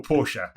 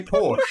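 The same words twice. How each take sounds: First: Porsche as POR-sha; two-syllable pronunciation. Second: Porsche as PORSH; one-syllable pronunciation. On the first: Briton offers the other way, Porsche in two syllables. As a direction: add an uh on the end of Porsche. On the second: Briton asks the American which way, Porsche as one syllable. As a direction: say Porsche with no final vowel. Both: Shown as a demonstration.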